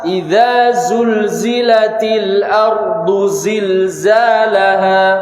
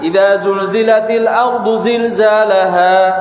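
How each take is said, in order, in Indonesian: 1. Bunyi z diucapkan dengan jelas dan tegas. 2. Bunyi z lemah dan tidak jelas. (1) "zain pun juga sama"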